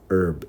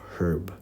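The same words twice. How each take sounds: First: The H is silent, American style. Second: The H is pronounced at the start.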